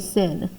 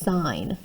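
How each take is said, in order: First: The word has a short vowel, like 'pin'. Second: The word has a long vowel, like 'pine'. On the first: The speaker calls it wrong. "You guys love to say sin" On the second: The speaker calls it right. "It is sine"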